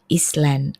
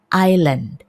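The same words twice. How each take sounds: First: An s sound is heard in the word. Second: No s sound is heard in the word. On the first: The speaker calls it wrong. "Kadang-kadang ada orang yang mengucapkannya Island" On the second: The speaker calls it right. "Jadi S-nya tidak terdengar sama sekali"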